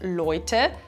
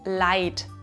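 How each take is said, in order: First: The vowel is 'oi', as in standard German. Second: The vowel is 'ei', as in the dialect. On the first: "Hier wird aus Oi ein Ei" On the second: "das zu Leid wird"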